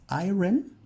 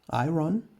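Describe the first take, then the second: First: The word is sounded out following its spelling. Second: The word is sounded out following its spelling.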